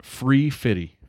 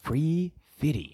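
First: "Free fitty" said lightly, fifty as fitty. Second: "Free fitty" drawn out slowly in a put-on higher voice. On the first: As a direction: say "Free fitty" with a playful drop of the l. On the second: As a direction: stretch out "Free fitty" in a goofy voice. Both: Shown as a demonstration. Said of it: "Free fitty".

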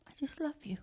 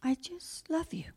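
First: Softer tender whisper. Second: Tender whisper. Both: Acted. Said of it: "he says".

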